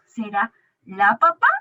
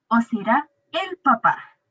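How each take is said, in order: First: Said in the usual way. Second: Slow, "el" leaned on with a fall; teacher settling on "el papá"; stress on el. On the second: Shown as a demonstration. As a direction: hit "el" in "o será el papá".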